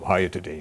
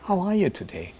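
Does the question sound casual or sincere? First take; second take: casual; sincere. First: It is asked quickly, as a routine greeting. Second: It is asked warmly, with real interest.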